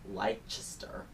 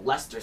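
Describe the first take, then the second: First: More of the written letters are sounded out. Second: The name is shortened to very few sounds. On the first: The speaker calls it wrong. "is how I say it, but it's obviously wrong" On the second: The speaker calls it right. "We only pronounce like four letters"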